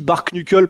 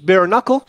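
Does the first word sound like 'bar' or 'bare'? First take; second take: bar; bare. First: The first word is said like French 'bar'. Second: The first word has the English 'bare' vowel. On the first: The speaker does not care about saying it properly. The speaker calls it wrong. "mais tu dis bar knuckle" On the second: This is the proper pronunciation. The speaker calls it right. "tu sais que ça se prononce bare knuckle"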